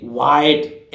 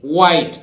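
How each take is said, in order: First: व्हाइट with the h wrongly sounded; the mistaken "white", h not silent; wrong pronunciation. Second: व्हाइट with a silent h; plain w opening व्हाइट, "wite", firm; correct pronunciation. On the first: Teacher showing how not to say व्हाइट, h sounded. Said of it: "ऐसे बोलते हैं नहीं". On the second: Teacher correcting students on व्हाइट, h left silent. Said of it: "एच यहां भी silent रहेगा". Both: Shown as a demonstration.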